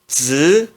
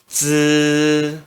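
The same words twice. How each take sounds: First: The pitch rises from middle to high. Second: The pitch stays high and level. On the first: "No segundo tom se pronuncia z" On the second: "no primeiro tom se pronuncia z"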